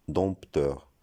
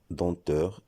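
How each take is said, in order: First: Dompteur with the P sounded before T; wrong pronunciation. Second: Denteur with nasal vowel straight into T; correct pronunciation. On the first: Teacher showing the mistake, dompteur with audible P. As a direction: say dompteur slowly, popping the P. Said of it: "et non dompteur". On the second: Teacher showing silent letters, denteur without any P sound. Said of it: "On doit dire denteur". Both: Shown as a demonstration.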